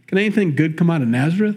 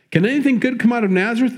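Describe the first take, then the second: First: Said in the usual way. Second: "Can anything good come out of Nazareth?" thrown out faster and higher, scornful; scoffing disbelief. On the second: Retold or imitated. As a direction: sneer at the idea, as if nothing good could come from "Nazareth". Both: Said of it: "He doesn't buy it".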